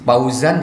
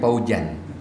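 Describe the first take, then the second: First: The middle consonant is a z sound. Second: The middle consonant is a j sound.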